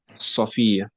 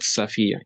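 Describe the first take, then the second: First: The first vowel sounds like a heavy 'o'. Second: The first vowel sounds like a light 'a'. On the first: The speaker calls it right. "It is So, Safia" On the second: The speaker calls it wrong. "It's not Safia"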